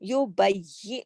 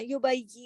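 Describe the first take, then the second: First: The doubled y is held firmly with stress. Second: The doubled y is said loosely without stress. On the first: The speaker calls it right. "सख्ती से पढ़ना है" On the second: The speaker calls it wrong. "ऐसे करके नहीं पढ़ना"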